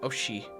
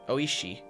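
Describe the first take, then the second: First: The name is said without the 'ee' sound. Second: The name is said with the 'ee' sound. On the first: The speaker calls it wrong. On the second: The speaker calls it right.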